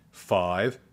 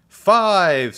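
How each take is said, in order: First: Said in the usual way. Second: "Five" high, loud and falling; emphatic FIVE. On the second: A narrator's reading. Teacher gives class the number, emphatic high "Five". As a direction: hit "Five" hard from high up, letting it drop.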